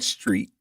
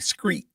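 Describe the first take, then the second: First: The word begins with an 'str' sound. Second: The word begins with an 'scr' sound. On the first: "instead of saying street" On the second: "for people from the South, they say screet"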